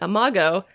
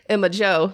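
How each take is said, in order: First: The g is pronounced hard, as in 'go'. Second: The g is pronounced soft, as in 'Joe'. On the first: "you say Imago" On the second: "I say Emma Joe, like she's a country girl"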